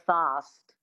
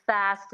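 First: 'fast' with an open, long 'ah'; long 'ah' in fast. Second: 'fast' with a flat short 'a', as in cat; short 'a' in fast. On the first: Coach showing the wanted sound, long 'ah' in 'fast'. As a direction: say 'fast' as 'fahst'. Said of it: "go fast". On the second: Coach showing what to drop, short 'a' in 'fast'. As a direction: say 'fast' the American way, short vowel. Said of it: "get rid of fast and". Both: Shown as a demonstration.

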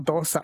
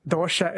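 First: "dosa" said with a plain s in the middle; "dosa", middle consonant s rather than sh. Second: "dosha", middle consonant sh rather than s. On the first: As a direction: say "dosa" with s, as in sun. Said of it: "not dosa". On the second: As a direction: say "dosha" with sh, as in shop. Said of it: "is pronounced dosha, not dosa". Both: Shown as a demonstration.

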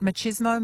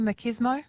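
First: MACHISMO said with a "ch" as in church. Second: MACHISMO said with a hard "k", questioning. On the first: Asking co-host how to say it, MACHISMO with a "ch" sound. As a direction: say machismo as "ma-CHIZ-mo". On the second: Asking co-host how to say it, MACHISMO with a "k" sound. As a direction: say machismo as "ma-KIZ-mo?", rising. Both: Shown as a demonstration. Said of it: "how do I say it".

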